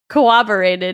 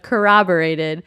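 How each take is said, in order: First: The r sounds are softened toward a w sound. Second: The r sounds are pronounced clearly as r. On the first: The speaker calls it wrong. "I said corroborated" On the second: The speaker calls it right. "instead of corroborated"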